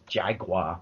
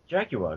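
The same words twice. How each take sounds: First: It is said with an American pronunciation. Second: It is said with a British pronunciation. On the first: This is how listeners in America say it. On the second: This is how it is said in the UK.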